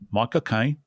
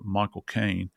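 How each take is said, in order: First: It is said in a Cockney accent. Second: It is said in his ordinary accent.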